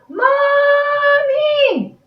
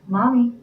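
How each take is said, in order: First: It is yelled as loud as possible. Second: It is said a little louder.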